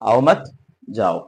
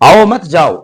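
First: There is a pause after the second word. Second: There is a pause after the first word. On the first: The listener is told not to come and to go away. "এর মানেটা ঠিক বিপরীত হবে, আপনি আসবেন না, চলে যান।" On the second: The listener is welcomed and asked not to leave. "আসুন, আপনি ফিরে যাবেন না।"

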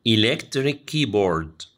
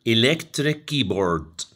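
No difference in how they are said.

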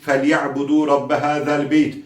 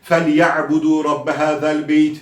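Both takes have the same delivery.

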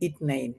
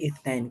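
First: The second consonant is a plain 't' sound. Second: The second consonant is a soft 'th' sound. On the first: This is the regional spoken form. "কিন্তু আঞ্চলিক হবে ইতনাইন" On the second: This is the standard Arabic form. "এটা আমরা তো আরবিতে বলি ইসনাইন"

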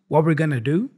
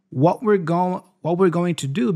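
First: The t at the end of 'what' is dropped. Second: The t at the end of 'what' is released.

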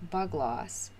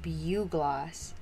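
First: The first syllable sounds like the word bug. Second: The first syllable sounds like byoo, not bug. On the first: The speaker calls it wrong. "I was pronouncing it the way it's spelled" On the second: The speaker calls it right. "supposedly it's pronounced bugloss"

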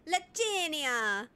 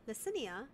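First: The name is said with an exaggerated Italian accent. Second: The name is said plainly, without an Italian accent.

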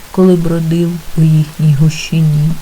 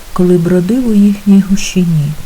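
Both takes have the same delivery.

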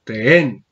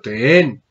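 Both takes have the same delivery.

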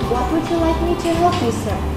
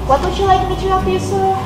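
First: The question is spoken more slowly. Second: The question is spoken too fast. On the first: The speaker calls it right. "that's exactly what I want" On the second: The speaker calls it wrong. "you speak too fast"

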